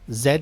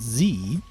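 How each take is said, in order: First: The letter is said as zed. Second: The letter is said as zee. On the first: "is British English" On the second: "if you're American, with an American accent"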